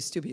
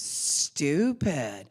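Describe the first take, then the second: First: The word is said short and plain. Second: The word is stretched out long and slowly. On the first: The speaker calls it wrong. "You don't say stupid" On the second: The speaker calls it right. "it's like drug out"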